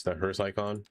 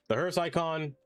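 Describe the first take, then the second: First: Said in the usual way. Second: Higher-pitched, fed-up repeat of hearse icon; exasperated repeat. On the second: Real, not acted. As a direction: throw it up high in annoyance. Icon is bane to existence.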